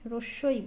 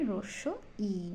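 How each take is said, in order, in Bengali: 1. শেষের 'i' কোনো বিরতি ছাড়াই সোজা এগিয়ে যায়। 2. শেষের 'i' আলাদা একটি ধ্বনি হিসেবে পৃথক করে বলা হয়। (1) "আমরা অধিকাংশ লোক ভুল পড়ি কীরকম, রস্যই রস্যই বলি" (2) "ই সাউন্ডটা আলাদা করে বোঝাতে হবে"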